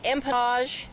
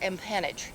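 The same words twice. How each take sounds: First: The word is pronounced with a French sound. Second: The word is pronounced with an English sound.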